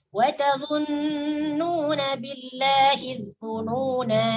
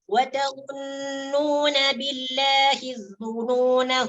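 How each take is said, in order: First: The final vowel is long and the phrase stops. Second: The final vowel is short and joins the next word. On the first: The reader pauses at the end of the verse. "Itu bacaan apabila diwaqaf. Maka dibaca panjang" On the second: The reader continues into the next verse. "apabila sekarang diwasol... maka nani tak panjang"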